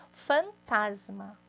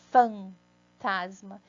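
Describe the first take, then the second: First: Fantasma drawn out slowly, syllables apart; slow and clear. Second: Fantasma stretched out very slowly, each syllable apart; even slower. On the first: Teacher showing the word, fantasma slowly. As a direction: sound out fantasma slowly for the class. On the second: Teacher repeating the word, fantasma slower still. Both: Shown as a demonstration. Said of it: "ó".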